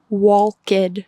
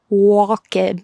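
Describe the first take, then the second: First: It is said with Spanish spelling-based pronunciation. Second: It is said with Spanish spelling-based pronunciation.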